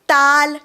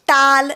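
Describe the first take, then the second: First: The vowel is an open, unrounded 'ah'. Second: The same.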